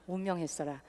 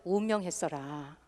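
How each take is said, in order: First: Softer, lower Jeolla repeat; Jeolla dialect repeated. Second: Soft Jeolla dialect ending. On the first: Host repeats the Jeolla phrase for the audience, softer. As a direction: repeat 운명했어라 quietly in Jeolla dialect, falling at the end. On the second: Host demos the Jeolla way to announce a death, softly. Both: Shown as a demonstration. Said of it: "전라도에서는".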